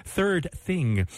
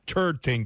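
First: "third thing" very slowly with clear TH sounds; carefully fix both THs in "third thing"; corrected pronunciation. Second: "third thing" with TH slipping to T; mispronounced TH. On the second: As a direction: say "third thing" as "turd ting". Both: Real, not acted. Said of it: "pronunciation is letting me down".

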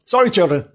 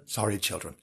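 First: Said in the usual way. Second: Hushed, sheepish sorry; soft repeated apology. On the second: Acted. Storyteller apologising to children, hushed and sheepish. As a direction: drop right down, a little embarrassed.

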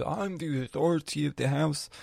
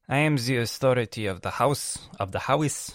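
First: A hint of a stern father, slightly higher; dad's stern decree. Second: Louder, mock-pompous dad announcing "I am the authority of the house"; faked dad voice. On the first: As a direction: declare "I'm the authority of the house" like a proud head of the house. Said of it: "My dad comes and says". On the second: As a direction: ham up the father's proclamation. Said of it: "let's be fake for a while".

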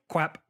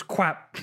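First: Put-on "Quap", a little kid's mispronounced crap; "Quap" lisped like a cartoon duck; toddler "crap" as Quap. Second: "Quap" with a W in place of the r, cartoonish; little-girl "Quap" for crap; "Quap", like a Looney Tunes voice; toddler "crap" as Quap. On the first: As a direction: say "Quap" with a kw sound and short a, like a toddler saying crap. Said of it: "this little voice behind me go". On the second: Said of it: "She just goes".

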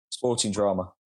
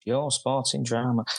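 First: Said in the usual way. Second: Slow, mock Scouse accent; bad Liverpool accent, drawn out; jokey Scouse take on the answer. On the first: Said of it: "that was a really bad accent". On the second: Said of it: "In a Scouse accent, or?".

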